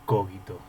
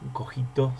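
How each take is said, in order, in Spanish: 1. El acento está en la primera sílaba. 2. El acento no está en la primera sílaba.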